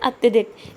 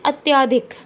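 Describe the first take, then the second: First: A short vowel follows the 'ty' sound. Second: A long 'aa' vowel follows the 'ty' sound. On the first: The speaker calls it right. "शुद्ध है अत्यधिक" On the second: The speaker calls it wrong. "क्या उच्चारण करते हैं अत्याधिक"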